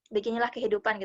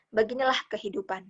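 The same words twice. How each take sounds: First: It is read in a flat, unemotional voice. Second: It is read with deep, heartfelt feeling. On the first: The speaker calls it wrong. "kita bacanya dengan datar doang" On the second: The speaker calls it right. "dengan penghayatan yang dalam"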